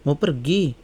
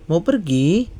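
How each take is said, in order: No difference in how they are said.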